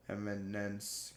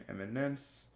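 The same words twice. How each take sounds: First: Eminence said slowly and softly, each syllable drawn out; careful, slowed-down eminence; slow careful repeat. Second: Said in the usual way. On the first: Shown as a demonstration. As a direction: slowly spell out eminence with the ear. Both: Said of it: "repeats the word slower".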